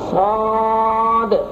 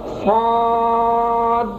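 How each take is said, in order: First: The final d is released with an echoing bounce. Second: The final d is held still without a bounce. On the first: The speaker calls it right. "आखिर में जो दाल है उसको हिलाकर पढ़ना है, कलकला करके" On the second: The speaker calls it wrong. "आखिर से दाल को नहीं हिलाया, ... ये दाल नहीं हिली, ये गलत हो गया"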